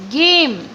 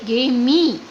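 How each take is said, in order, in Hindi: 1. शब्द m ध्वनि पर खत्म होता है। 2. शब्द के अंत में एक अतिरिक्त ee ध्वनि है। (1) "लाउडली बोलेंगे गेम" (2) "ना कि गेमी"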